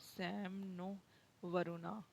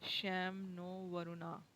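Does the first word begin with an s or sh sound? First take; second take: s; sh. First: The first word begins with a plain s sound. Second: The first word begins with an sh sound.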